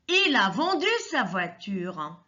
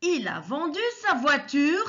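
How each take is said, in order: First: The voice falls at the end, as a statement. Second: The voice rises at the end, as a question.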